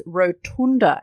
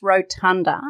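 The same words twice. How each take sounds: First: Rotunda with an OO, ro-TOON-da; rotunda, oo vowel; Marianne's pronunciation. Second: Rotunda with UH, ro-TUN-da; rotunda, short u; correct pronunciation. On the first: Retold or imitated. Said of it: "as my friend Marianne says". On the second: Shown as a demonstration. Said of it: "It's rotunda".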